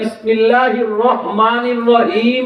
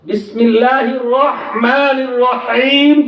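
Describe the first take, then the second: First: The h sounds are plain, Bengali-style h sounds. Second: The h sounds are throaty, Arabic-style h sounds. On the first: The speaker calls it wrong. "Bangla উচ্চারণ দিয়া" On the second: The speaker calls it right. "এই হা উচ্চারণ করার বাংলার কোনো অক্ষর নাই"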